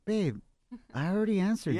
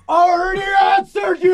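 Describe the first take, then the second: First: It is said in a soft, affectionate tone. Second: It is said in a sharp, irritated tone. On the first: This is how he really said it. "But Eddie, in reality, in real life, is like" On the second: This is how it came across through her filter. "After it went into intern Kim's toxica brain filter, it sounded like"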